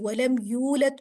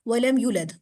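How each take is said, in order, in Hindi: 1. अक्षर सावधानी से और पूरी तरह बोले गए हैं। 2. अक्षर जल्दी-जल्दी बोले गए हैं और पूरी तरह साफ़ नहीं हैं।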